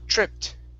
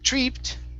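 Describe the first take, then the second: First: The vowel is a short i sound. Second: The vowel is a long ee sound. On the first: The speaker calls it right. "short I" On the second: The speaker calls it wrong. "tripped instead of tree, treeped"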